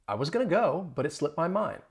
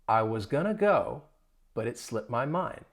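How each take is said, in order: First: The sentence is said at a faster pace. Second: The sentence is said at a slower pace.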